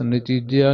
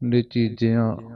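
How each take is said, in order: First: The word ends in a plain, oral vowel. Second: The word ends in a nasal vowel. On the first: The speaker calls it wrong. "ਨਿਚੀਜਿਆ ਨਹੀਂ ਗਾਣਾ" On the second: The speaker calls it right. "ਬਿੰਦੀ ਸਹਿਤ"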